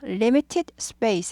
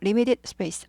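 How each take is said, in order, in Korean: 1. t는 또렷하고 센 t로 발음합니다. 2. t는 약화되어 부드러운 d 소리가 납니다. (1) "하지 말고" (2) "limited에서 limited로 약화되죠"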